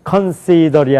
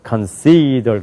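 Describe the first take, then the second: First: All syllables are said evenly without stress. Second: One syllable is clearly stressed. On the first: The speaker calls it wrong. "아니라" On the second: The speaker calls it right. "미국 사람들 consider 그런단 말이에요"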